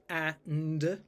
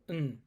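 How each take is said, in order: First: The word is said in full with a vowel. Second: The word is reduced to a bare n sound. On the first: "the pronunciation is and, like that" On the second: "you probably pronounce it n, just n"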